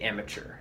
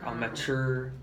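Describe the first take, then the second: First: The first syllable is stressed. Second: The later part, mature, is stressed. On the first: The speaker calls it right. "Better to say amateur. Just yeah, no stressing of mature" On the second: The speaker calls it wrong. "you really stressed mature"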